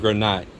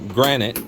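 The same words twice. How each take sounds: First: It is said the Philippine way. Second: It is said the American way.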